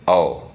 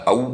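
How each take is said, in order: First: The vowel is said the Hindi way. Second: The vowel is said the Sanskrit way. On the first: "Hindi में जैसे हम बोलते हैं औ" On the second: "जिस तरह संस्कृत में बोला जाता है औ"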